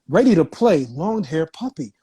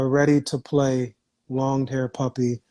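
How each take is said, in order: First: It is read with lively, energetic inflection. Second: It is read flatly, with little energy. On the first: The reading grabs a child's attention. The speaker calls it right. "just doing little simple inflections" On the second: The reading will not hold a child's attention. The speaker calls it wrong. "You can't be like this"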